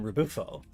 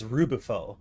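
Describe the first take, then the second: First: The stress is on a later syllable. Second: The stress is on the first syllable. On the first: The speaker calls it wrong. "rather than" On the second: The speaker calls it right. "put the emphasis on the Ru"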